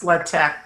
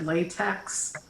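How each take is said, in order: First: The word is said its official way. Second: The word is said the common everyday way. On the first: The speaker calls it right. "It's actually pronounced latex" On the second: The speaker calls it wrong. "People usually call it latex"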